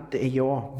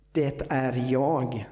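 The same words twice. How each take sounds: First: Said in the usual way. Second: "Det är jag" drawn out slowly with weight on "jag"; slow emphasis on jag. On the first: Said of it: "Det är jag", säger han". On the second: Shown as a demonstration. Preacher repeating Jesus' words to the congregation, slow stress on "jag". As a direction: lean into "jag", slow and deliberate. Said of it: "säger han".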